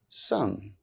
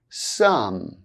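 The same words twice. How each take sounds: First: The word is reduced with a weak vowel. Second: The word is said fully with its full vowel. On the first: "then their weak forms" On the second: "I'll say the strong forms of the words first"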